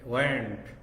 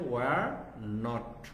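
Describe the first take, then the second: First: It is said as one contracted word. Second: It is said as two separate full words. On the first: "abbreviation হচ্ছে ওয়ার্নড" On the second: "full form হচ্ছে ওয়ার নট"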